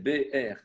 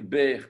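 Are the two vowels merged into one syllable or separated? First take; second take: separated; merged. First: The two vowels are split into two syllables. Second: The two vowels merge into one syllable. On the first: The speaker calls it right. "Non, c'est pas bière, c'est B R" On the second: The speaker calls it wrong. "Sinon, vous pourriez dire bière, comme une bière"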